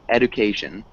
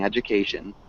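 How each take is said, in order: First: The middle consonant is a plain hard D. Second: The middle consonant is a soft J sound. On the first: The speaker calls it wrong. "You're saying it with just that straight D" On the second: The speaker calls it right. "remember that j sound at the beginning"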